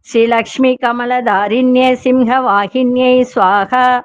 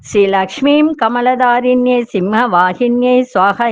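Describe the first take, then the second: The two takes are said the same way.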